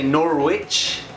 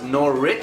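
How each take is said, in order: First: The w in the middle is pronounced. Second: The w in the middle is silent. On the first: The speaker calls it wrong. "I used to say Norwich" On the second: The speaker calls it right. "I know now it's Norwich"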